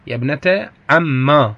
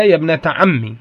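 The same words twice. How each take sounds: First: "عما" ending in a long aa; ya turned alif. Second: "عمي" ending in an ee sound; original ya ending. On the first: Teacher quotes the poet's fourth dialect form, long alif ending. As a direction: draw "عما" out to a long open aa. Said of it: "الرابعة قلب الياء ألفا". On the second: Teacher shows students the original form, ending in ya. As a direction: close "عمي" on ee, kasra on the mim. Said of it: "أصلها". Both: Shown as a demonstration.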